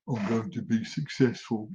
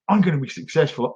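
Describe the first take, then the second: First: It is said flatly, without energy. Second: It is said forcefully, with lots of energy.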